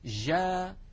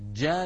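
First: The j lacks full closure, so sound flows. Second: The j starts with full closure, then releases. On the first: This is how many modern dialects pronounce it. "أما ما نسمعه في كثير من العاميات المعاصرة" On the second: This is the classical standard pronunciation. "بالتصاق تام محكم يمنع الصوت من الجريان. هكذا الجيم العربية الفصيحة"

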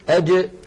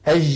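First: The jeem is a sharp, closed Standard Arabic stop. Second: The jeem is a soft, drawn-out colloquial sound.

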